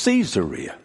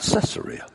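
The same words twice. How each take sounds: First: The word begins with the sound of 'Caesar'. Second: The word does not begin like 'Caesar'. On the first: The speaker calls it right. "the correct pronunciation of that word is Caesarea" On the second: The speaker calls it wrong. "not Caesarea"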